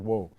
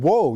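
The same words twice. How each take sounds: First: Said in the usual way. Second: Sudden loud startled whoa, pitched up. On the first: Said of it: "then the horse stopped when I said". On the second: Retold or imitated. Stumbling boy cries out to a moving horse, startled. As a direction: blurt it out while losing your balance. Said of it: "try to catch my balance".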